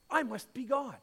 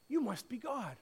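First: "I" stressed, falling to the end; "I" as the word that matters, falling. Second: "you" stressed, falling to the end; "you" as the word that matters, falling. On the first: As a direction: lean on "I" in "I must be God". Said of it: "A cat says". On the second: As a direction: lean on "you" in "you must be God". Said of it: "A dog says". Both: Retold or imitated.

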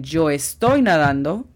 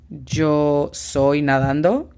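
First: "yo estoy nadando" with "estoy" stressed; confident correction, "estoy" marked; right version. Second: "yo soy nadando" slow, questioning rise; slow, doubtful trial phrase; wrong version. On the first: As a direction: lean on "estoy" to show it fits. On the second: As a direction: try "yo soy nadando" as if testing it. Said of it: "No, esto no tiene lógica". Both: Shown as a demonstration.

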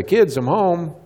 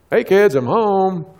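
First: Higher-pitched homecoming call; mildly acted call to the kids. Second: High, slow, drawn-out call; insistent calling out. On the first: Dad announcing himself to his kids, calling out. Parent calling out on coming home. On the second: Retold or imitated. Dad trying to reach kids glued to TV, calling out. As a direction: stretch out a singsong homecoming call. Parent calls again, unheard by kids.

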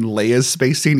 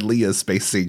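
First: Leia's said LAY-uh's, as in Star Wars; Leia correct. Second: Leah's said LEE-uh's, the misreading. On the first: Shown as a demonstration. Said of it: "instead of saying". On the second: Retold or imitated. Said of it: "he said".

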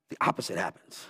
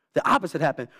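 First: "the opposite happens." said low and soft; dropped low. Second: Said in the usual way. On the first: Shown as a demonstration. Preacher drops low before repeating point, quiet. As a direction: sink "the opposite happens." to a near hush.

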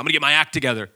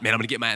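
First: Prodigal son resolve. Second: Said in the usual way. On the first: Retold or imitated. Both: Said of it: "that's the prodigal son".

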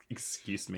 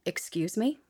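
First: Much softer, falling, cold warning; quiet stern mother voice. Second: Stern rising challenge; a hint of a warning mom; mother voice. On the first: Host echoing the mother voice, quiet and cold. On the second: Cohost showing the mother voice to a rude caller. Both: Shown as a demonstration. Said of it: "find that mother voice inside".

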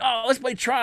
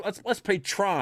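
First: Much higher, eager call to play; excited suggestion. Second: Drawn-out, slow suggestion, a bit higher. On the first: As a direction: pitch it up like an eager kid. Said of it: "people were like". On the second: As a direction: slowly propose the game. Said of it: "and start off". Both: Retold or imitated.

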